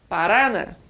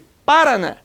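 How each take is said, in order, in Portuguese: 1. A tônica é a sílaba do meio. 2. A tônica é a primeira sílaba. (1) "Se forte fosse o Ra" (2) "Se fosse o Pá"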